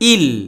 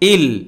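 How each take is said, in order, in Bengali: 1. n ধ্বনিটি l ধ্বনির সঙ্গে মিশে যায়। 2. n ধ্বনিটি l ধ্বনির সঙ্গে মিশে যায়।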